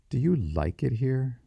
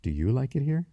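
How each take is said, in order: First: "like" leaned on, question pitched high; stress on "like". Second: High question rising steeply through "it here"; question turned back. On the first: Boy quizzing the young woman, emphasis on "like". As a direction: ask it higher, putting the emphasis on "like". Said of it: "emphasis on the word like". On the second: Young woman returning the boy's question, rising high on "it here". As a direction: ask it higher, lifting "it here" at the end. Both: A narrator's reading.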